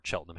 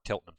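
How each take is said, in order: First: Cheltenham with CH as in "chair"; soft CH pronunciation. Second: Cheltenham said with a hard K; hard K pronunciation. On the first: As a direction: start Cheltenham with a "ch" sound. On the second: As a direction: say Cheltenham as "Keltenham". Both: Real, not acted. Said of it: "however you pronounce that".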